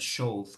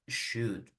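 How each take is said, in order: First: The O and L sounds are pronounced. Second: Only the U vowel is pronounced, no L. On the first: The speaker calls it wrong. "no voy a pronunciar should" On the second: The speaker calls it right. "voy a pronunciar should"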